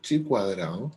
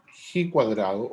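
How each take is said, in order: First: The first word starts with a ch sound. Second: The first word starts with a throaty h-like sound. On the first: The speaker calls it wrong. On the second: The speaker calls it right.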